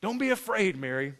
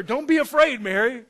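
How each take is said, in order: First: Toned-down, lightly voiced angel; calm angel's reassurance. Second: Loud, raised-pitch acted angel; lightly played angel, urgent and high; angel's reassurance. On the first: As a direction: reassure gently, falling away at the name. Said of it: "the angel told her". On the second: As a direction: call out a reassurance to someone panicking. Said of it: "He's like, the angel told her".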